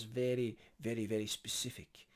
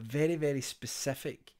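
First: A botched attempt at a BBC newsreader's English accent; terrible BBC accent. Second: Said in the usual way. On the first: Shown as a demonstration. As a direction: lightly put on a BBC presenter accent, badly. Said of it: "forget that accent, that was terrible". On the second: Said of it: "forget that accent".

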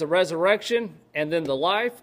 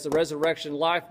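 First: "resurrection" and "life" set apart, rising at "life"; two separate things. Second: "resurrection, life" run together as one phrase; one joined term. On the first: Preacher giving the first reading of the verse, two separate things. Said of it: "you could take it as". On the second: Preacher giving the other reading of the verse, one joined term. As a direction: join "resurrection" straight onto "life". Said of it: "or you could take it as". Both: Shown as a demonstration.

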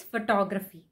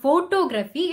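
First: Photography stressed on TOG; stress on second syllable. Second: Photography stressed on PHO; stress on first syllable. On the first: Teacher modelling photography stress. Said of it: "stress on the second O". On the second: Teacher showing the wrong photography stress. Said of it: "stressing on the first O". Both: Shown as a demonstration.

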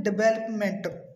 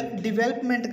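First: "डेवलपमेंट" as di-ve-lap-ment; common mispronunciation. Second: "डेवलपमेंट" as di-VEL-up-ment; corrected pronunciation. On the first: Teacher quoting many people's wrong development. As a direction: say "डेवलपमेंट" with weak first vowel. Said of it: "बहुत सारे लोग इसे बोलते हैं". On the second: Teacher correcting development, di-VEL-up-ment. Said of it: "कहेंगे". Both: Shown as a demonstration.

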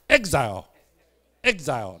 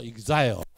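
First: Exile said slowly and loudly with clear English syllables EK-zile; proper English exile. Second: Exile said the Japanese way, katakana-like syllables; Japanese-style exile. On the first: Teacher models correct English pronunciation of exile, slow. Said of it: "正英语发音爱读做". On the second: Teacher contrasts Japanese pronunciation of exile. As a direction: lightly mimic a Japanese reading of exile. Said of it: "日本发音读做exile". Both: Shown as a demonstration.

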